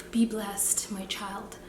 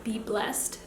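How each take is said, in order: First: A light Nigerian auntie lilt. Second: Said in the usual way. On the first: Pretend. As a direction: bless them like a Nigerian auntie. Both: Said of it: "I sound like a Nigerian auntie".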